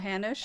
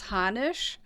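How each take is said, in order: First: The name is said with English sounds. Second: The name is said with German sounds. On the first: This is how everybody here says it. "in English we say Hanished, you know, Hanish" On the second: This is the original form of the name. "in German it's Hanisch"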